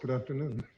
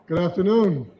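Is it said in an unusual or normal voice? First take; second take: normal; unusual. First: It is said in a normal voice. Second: It is said in an unusual voice.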